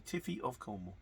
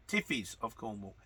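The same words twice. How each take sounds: First: Tiffy said as plain Tiffy, a stumbled try at the name; mispronounced name. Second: Tiffies said with the plural -ies ending, clearly; corrected name. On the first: Correcting a viewer's name on air, fumbling Tiffy. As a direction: trips over Tiffy, still not getting it right. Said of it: "Oh, I can't get that right". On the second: Finally getting the viewer's name right as Tiffies. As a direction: lands Tiffies at last, settled. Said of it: "It's not that difficult". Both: Shown as a demonstration.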